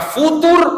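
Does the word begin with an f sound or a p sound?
f sound. It begins with f and ends with r.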